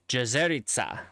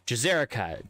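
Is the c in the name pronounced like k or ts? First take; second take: ts; k. First: The c is pronounced like ts. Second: The c is pronounced like a k. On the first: The speaker calls it right. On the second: The speaker calls it wrong.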